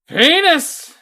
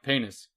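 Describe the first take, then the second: First: The word is said much more loudly. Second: The word is said fairly quietly. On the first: "you have to say it louder" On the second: "One person says"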